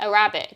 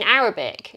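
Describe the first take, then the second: First: "Arabic" as a-RAB-ic, second syllable stressed; mum's pronunciation. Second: Said in the usual way. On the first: Retold or imitated. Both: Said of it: "my mum says it like Arabic".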